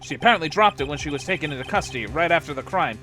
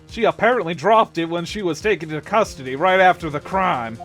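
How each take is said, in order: First: It is said without a Hank Hill impression. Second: It is said in a Hank Hill impression.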